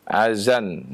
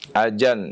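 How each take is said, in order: First: The middle consonant is a 'z' sound. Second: The middle consonant is a 'j' sound. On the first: "dengan zai" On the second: "Atau dengan jim"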